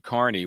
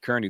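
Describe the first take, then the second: First: The first syllable sounds like 'car'. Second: The first syllable sounds like 'keer'. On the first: This is how the spelling is usually read. "I'm programmed to to say Carney when I see the name spelled like that" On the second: This is how people at the trial said it. "but they pronounced it Kearney"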